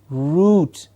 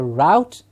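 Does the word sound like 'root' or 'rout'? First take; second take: root; rout. First: It rhymes with boot, in a British way. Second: It rhymes with out, in an American way. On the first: This is the standard English form. "standard, good English pronunciation" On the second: This is how Americans say it. "the Americans having a different pronunciation for this, calling it a route"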